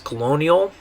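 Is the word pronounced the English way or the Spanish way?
English. It is pronounced with English vowels and sounds. "In English would be the word colonial, or the way you would say it is"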